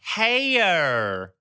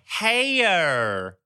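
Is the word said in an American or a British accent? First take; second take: American; American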